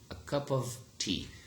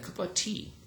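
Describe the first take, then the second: First: It is said slowly with the v sound. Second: It is said quickly with the v dropped. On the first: "if you pronounce it slowly" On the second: "In rapid speech, they are elided"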